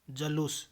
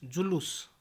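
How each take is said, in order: First: जलूस with a in the first syllable; mispronunciation. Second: Said in the usual way. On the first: Shown as a demonstration. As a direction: say ja-loos for जलूस. (जलूस, ज पर अ) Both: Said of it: "जलूस नहीं".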